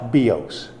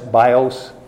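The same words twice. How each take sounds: First: The first vowel sounds like 'ee'. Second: The first vowel sounds like 'eye'. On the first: "but it's pronounced bios. So I is in many languages pronounced like an E" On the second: "We say, you know, the word B-I-O-S, bios"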